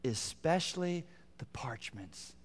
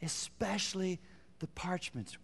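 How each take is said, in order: First: Slow hushed whisper on "Especially"; whispered emphasis. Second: Quiet, voiced, slow "Especially the parchments"; soft repeat. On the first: Preacher pointing the congregation to a key phrase, whispered. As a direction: breathe "Especially the parchments" almost silently. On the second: Preacher repeating the key phrase to the congregation, softly. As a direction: say it again softly, aloud now. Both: Shown as a demonstration. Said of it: "here's the phrase I want you to see".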